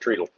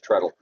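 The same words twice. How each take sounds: First: The word has the English pronunciation. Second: The word has the usual, non-English pronunciation. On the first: "Unless you're English, and then it's treadle" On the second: "It's treadle"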